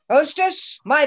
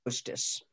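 First: Rising call across the tavern. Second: Breathy whisper, calling the hostess. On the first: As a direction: call out to the hostess, higher. Falstaff calls out for breakfast. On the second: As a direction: hush it out almost unvoiced. Falstaff calls the hostess softly. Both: Acted.

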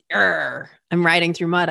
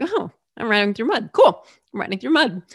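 First: A mild, dragged-down complaint; frustrated grumble. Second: Breezy shrug at the same trouble; cheerful acceptance. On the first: Cyclist grumbling to herself about riding through mud, frustrated. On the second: Cyclist telling herself riding through mud is fine, cheerfully accepting. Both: Acted. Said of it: "instead of having that feeling of".

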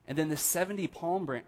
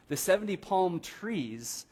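First: Said in the usual way. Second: The seventy palm trees said slowly, with palm stressed; corrected stress. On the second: Shown as a demonstration. Pastor corrects his slip to the congregation, stressing palm. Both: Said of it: "I keep saying palm branches".

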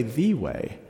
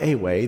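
First: "the" weighted and set apart, falling; stress on THE. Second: Said in the usual way. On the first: Shown as a demonstration. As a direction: lean hard on "the" in "the way". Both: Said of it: "not a way, the way".

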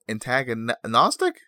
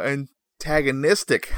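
First: "antagonistic" slowly, with "nos" for "nis"; mispronounced. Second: "antagonistic" slowly, with a clear "nis"; correctly pronounced. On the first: Host fumbling a big word, mispronounced "antagonistic" as antagonostic. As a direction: stumble on "antagonistic", saying an-tag-a-NOS-tic. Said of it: "Pronounce that poorly". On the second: Host proving he can say it, "antagonistic" carefully with "nis". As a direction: sound out "antagonistic" as an-tag-a-NIS-tic. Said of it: "You didn't think I could do it". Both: Real, not acted.

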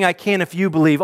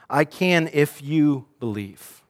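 First: Said in the usual way. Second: "I can if you believe" slow, weight on "can"; slow emphasis. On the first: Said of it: "Jesus is not saying". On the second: Shown as a demonstration. Preacher showing the false reading, slow and deliberate. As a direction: spell out "I can if you believe" slowly, pressing "can". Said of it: "What he is not saying is".

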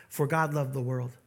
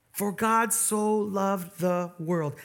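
First: Said in the usual way. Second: "so" drawn out and weighted, slow; stress on so. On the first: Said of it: "It doesn't just say, "For God loved the world". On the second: Shown as a demonstration. Pastor pointing the church to one word, slow stress on "so". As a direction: lean on "so" in "For God so loved the world". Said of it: "It doesn't just say".

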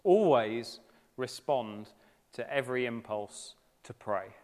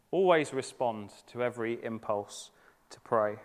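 First: Always respond drawn out, stress on Always and every; measured quotation with weight on "Always"; slow emphatic quote. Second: Said in the usual way. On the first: Shown as a demonstration. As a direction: read it slowly, leaning on "Always" and "every". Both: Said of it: "who says this".

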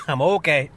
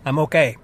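First: Cough, then a strained reassurance; coughing up water. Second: Reassuring between coughs; coughing up water. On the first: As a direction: still choking, insist you're fine. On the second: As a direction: croak it out mid coughing fit. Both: Real, not acted. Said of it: "Went down the wrong pipe".

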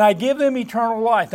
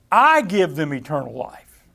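First: Said in the usual way. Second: "I" stressed and held, the rest falling away. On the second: Shown as a demonstration. Preacher showing listeners the emphasis in Jesus' words, stressing "I". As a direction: lean hard on the word "I". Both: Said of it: "I want you to see the emphasis here".

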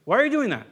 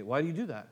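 First: Loud, higher exasperated demand; scolding freak-out question. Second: Gentle question. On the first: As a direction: throw the question at them in frustration. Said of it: "have a freak out and say". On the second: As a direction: ask it softly, to understand. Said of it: "we can ask questions". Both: Retold or imitated.

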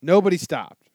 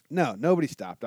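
First: Louder, insistent NOBODY stopped; indignant first answer, pressing hard on "Nobody"; emphatic denial. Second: Said in the usual way. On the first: Real, not acted. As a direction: hammer the "Nobody" in disbelief. Asked if anyone helped.

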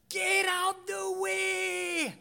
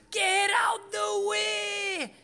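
First: High, slow, hammed-up shout in his rural English accent; shepherd's scream. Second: High, slow, hammed-up English country accent shout; shepherd's accent. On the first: Angry English shepherd yelling at the driver, high hammed-up accented shout. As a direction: bellow it like the furious English shepherd. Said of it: "he started to scream at me". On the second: Imitating the English shepherd's accent for the congregation, high slow shout. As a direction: yell it like the angry English shepherd again. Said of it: "That was his accent".

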